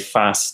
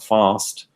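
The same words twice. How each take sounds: First: It is said in a northern English accent. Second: It is said in a southern English accent. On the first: "I came from the north of England" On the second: "and not fast"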